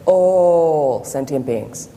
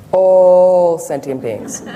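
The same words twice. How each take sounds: First: Very slow, drawn-out teacher's voice; imitating Lama Zopa Rinpoche. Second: All sentient beings, very slow and much louder, All leaned on; emphasis on all sentient beings. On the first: Student imitating her teacher's slow emphasis, drawn out. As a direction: stretch each word like the old lama. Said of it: "That's how he speaks". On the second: Retold or imitated. Teacher showing the class the lama's heavy emphasis. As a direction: lean hard on All, drag every word out. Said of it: "The emphasis on all sentient beings".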